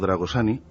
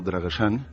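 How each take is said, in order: First: The name is pronounced with Spanish sounds. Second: The name is pronounced with Romanian sounds.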